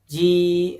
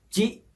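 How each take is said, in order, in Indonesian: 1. Vokalnya panjang. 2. Vokalnya pendek. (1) "huruf jimnya dibaca panjang" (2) "maka dibacanya cukup pendek saja"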